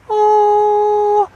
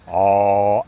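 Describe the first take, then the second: First: It is said at a high pitch. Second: It is said at a low pitch.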